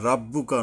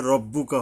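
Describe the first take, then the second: First: "রাব্বুকা" with a thin "ra"; the mistaken "রাব্বুকা", ra instead of ro; wrong light R. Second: "রব্বুকা" with a rounded "ro"; the corrected "রব্বুকা", ro instead of ra; correct heavy R. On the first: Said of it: "রাব্বুকা নয়". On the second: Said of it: "রব্বুকা হবে, র". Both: Shown as a demonstration.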